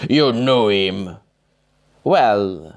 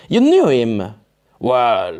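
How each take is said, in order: First: Slow voice, wrong character; slower misplaced character voice. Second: Louder corrected character voice; stressing knew, louder; right character voice. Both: Acted. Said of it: "sorry, wrong voice".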